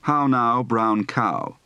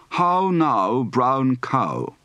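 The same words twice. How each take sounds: First: Said in the usual way. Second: "How now" with a broad ah-oo glide; round, long ow in "cow"; British ow diphthong. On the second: Shown as a demonstration. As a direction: open "brown cow" from a back ah into oo. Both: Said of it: "Practice for the ow diphthong".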